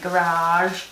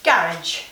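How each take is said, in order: First: It is said with an American accent. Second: It is said with a British accent. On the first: "that's how you Americans say garage" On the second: "We would say garage. The proper way to say it"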